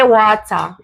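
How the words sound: It is said in a Jamaican accent. "Jamaicans say water"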